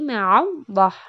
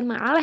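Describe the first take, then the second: First: The l is thick and the vowel sounds like o. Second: The l is thin and the vowel sounds like a. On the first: The speaker calls it right. "tapi ma'allah" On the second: The speaker calls it wrong. "itu bukan ma'alah ya bacanya"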